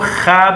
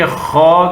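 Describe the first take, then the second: First: The letter name is said light, with a thin vowel. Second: The letter name is said heavy, with a rounded vowel. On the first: The speaker calls it wrong. "इसको खा भी न पढ़े" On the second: The speaker calls it right. "बल्कि खौ करके मोटा अदा करे"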